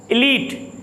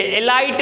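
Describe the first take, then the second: First: A long ee in "एलीट"; "एलीट" ending like leet; correct pronunciation. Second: "एलाइट" with an eye vowel; wrong pronunciation. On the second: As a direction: say "एलाइट" as i-LITE. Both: Shown as a demonstration. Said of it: "ये एलाइट नहीं होता".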